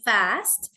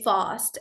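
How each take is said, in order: First: American "fast" with a front a as in cat; American pronunciation. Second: British "fast" with a long open ah; British pronunciation. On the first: Teacher showing students how Americans say it, American "fast". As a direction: say "fast" with an American flat-a vowel. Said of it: "Americans say fast". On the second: Teacher showing students how British people say it, British "fast". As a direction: say "fast" as "fahst". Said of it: "British say fast". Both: Shown as a demonstration.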